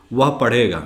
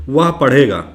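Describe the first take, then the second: First: Said in the usual way. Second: Slow, careful dictation of वह पढ़ेगा; slow example reading. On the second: Shown as a demonstration. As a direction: read वह पढ़ेगा out slowly for the class.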